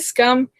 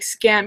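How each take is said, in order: First: The vowel sounds like the one in cup. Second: The vowel sounds like the one in cat. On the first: "Is it scum?" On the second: "I always pr- pronounce it like scam, even though I know it's wrong"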